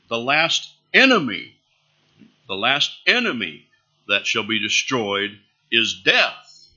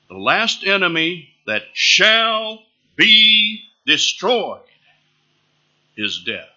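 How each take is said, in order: First: Emphasis falls on enemy and death. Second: Emphasis falls on shall be destroyed. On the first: Death is a feared enemy still to be faced. The speaker calls it wrong. "I can emphasize enemy. I can emphasize death" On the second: Death is certain to be defeated. The speaker calls it right. "I can emphasize shall be destroyed"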